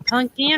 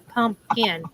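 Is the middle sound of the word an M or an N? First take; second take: N; M. First: The middle consonant is an N sound. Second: The middle consonant is an M sound. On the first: "do you use the N or M" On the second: "do you use the N or M"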